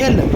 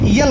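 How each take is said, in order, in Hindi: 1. यह सीधे स्वर की ध्वनि से शुरू होता है। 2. यह स्वर से पहले य की ध्वनि से शुरू होता है। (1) "या नहीं लगाना है बल्कि एल ए लगाना है" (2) "कुछ बच्चे यहाँ पर एल को यल कहते हैं"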